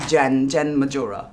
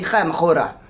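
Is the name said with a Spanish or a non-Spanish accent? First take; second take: non-Spanish; Spanish. First: The name is said without a Spanish accent. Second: The name is said with a Spanish accent. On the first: "But you would say" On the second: "if you're from Spain, you would call me"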